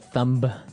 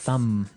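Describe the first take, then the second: First: The word ends with a B sound. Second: The word ends on the M sound. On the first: The speaker calls it wrong. "you wouldn't say the thumb" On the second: The speaker calls it right. "I would actually only pronounce the M"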